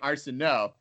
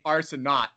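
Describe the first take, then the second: First: The name is said with a French pronunciation. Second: The name is said with an English pronunciation. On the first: The speaker calls it right. "you're saying Arsenault" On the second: The speaker calls it wrong. "you're not saying"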